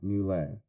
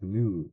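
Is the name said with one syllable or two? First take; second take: two; one. First: The name is said as two syllables. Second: The name is said as one syllable. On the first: The speaker calls it wrong. "and not" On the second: The speaker calls it right. "it is a monosyllabic"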